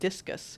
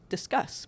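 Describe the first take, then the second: First: It sounds like the word discus. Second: It sounds like the word discuss. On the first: The speaker calls it wrong. "it really looks to me like discus" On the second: The speaker calls it right. "should be pronounced discuss"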